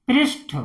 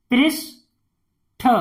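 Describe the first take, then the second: First: Said in the usual way. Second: "पृष्ठ" as "prish", long pause, "tha"; syllable by syllable. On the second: Shown as a demonstration. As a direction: split "पृष्ठ" in two. Teacher sounds out, then blends. ("पृष्ठ" को तोड़कर पढ़ना)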